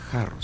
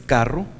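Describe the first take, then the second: First: "jarro" with a soft throaty J, rolled R. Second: "carro" with a crisp hard K, rolled R. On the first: Teacher gives the reading without dagesh, a throaty J. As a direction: say "jarro" with the breathy Spanish J. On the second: Teacher contrasts the dagesh reading with a hard K. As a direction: say "carro" with a clear K sound. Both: Shown as a demonstration. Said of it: "mientras que si no tiene".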